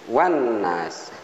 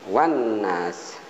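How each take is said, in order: No difference in how they are said.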